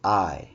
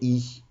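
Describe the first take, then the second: First: The letter is said with an "eye" sound. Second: The letter is said with an "ee" sound. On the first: This is the English name of the letter. "Et en anglais, c'est I" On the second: This is the French name of the letter. "I français, c'est I"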